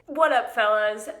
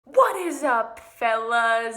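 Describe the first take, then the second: First: The greeting is said casually. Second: The greeting is said dramatically.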